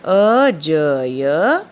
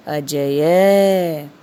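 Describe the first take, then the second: First: अजय stretched slowly, each sound held; syllable by syllable. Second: अजय said slowly as one word; slow read. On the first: Teacher stretching अजय so the kids can repeat. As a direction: draw out अजय for the class to repeat. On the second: Teacher reading अजय aloud to the children. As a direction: read अजय clearly to the class. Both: Shown as a demonstration. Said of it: "मेरे साथ-साथ इसका उच्चारण करिए".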